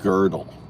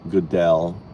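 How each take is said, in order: First: The first vowel sounds like 'ur' in girdle. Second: The first vowel sounds like 'oo' in Godot. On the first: "It sounds like to me there's an R in there" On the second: "I always think of Goodell is waiting for Godot"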